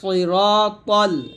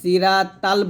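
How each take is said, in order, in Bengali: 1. s এবং t উচ্চারণ ভারী। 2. s এবং t উচ্চারণ হালকা। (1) "ইহদিনা সিরাতাল" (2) "এই যে সিরাতাল বলি, সদকে সিন উচ্চারণ করি"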